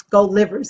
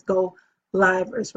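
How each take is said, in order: First: "Livers" said with a short i, like the organ; short-i mispronunciation. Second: "Livers" said with a long i, rhyming with "drivers"; long-i pronunciation. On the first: Host rejecting a reading of the group's name, "Livers" with a short i. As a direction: say "Livers" as LIV-erz, rhyming with "givers". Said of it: "That's what I was like". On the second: Host explaining the new group's name, "Livers" with a long i. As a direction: say "Livers" as LIE-verz, like live broadcast. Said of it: "had to make it look crazy". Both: Shown as a demonstration.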